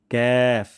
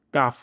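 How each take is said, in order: First: ক্যাফ with light k and fronted ae; thin kaf. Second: কাফ with a broad open aa; wrong kaf. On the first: Teacher showing the correct letter, thin ক্যাফ. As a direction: draw ক্যাফ out thinly. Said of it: "পাতলা সাউন্ডে". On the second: Teacher showing the mistake, broad-vowel কাফ. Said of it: "এমনটি হবে না". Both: Shown as a demonstration.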